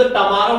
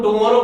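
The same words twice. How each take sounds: First: टमारो with a short neutral a after t, not u; टमारो as ta-ma-ro, the u softened to a light a; pure pronunciation. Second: टुमारो said the everyday way, with a clear u after t; टुमारो, the usual tu-ma-ro; common way. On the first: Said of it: "इसको शुद्ध टमारो बोला जाता है". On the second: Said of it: "इसको अपन टुमारो बोलते हैं". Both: Shown as a demonstration.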